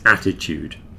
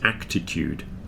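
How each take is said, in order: First: No k sound comes before the t. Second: A k sound comes before the t. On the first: The speaker calls it right. "It's attitude" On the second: The speaker calls it wrong. "not A C T. Everybody thinks this word is actitude"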